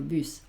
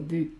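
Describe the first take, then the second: First: The final s sound is clearly pronounced. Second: The final s sound is left silent. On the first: The speaker calls it right. "sino bus" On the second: The speaker calls it wrong. "no digo bu"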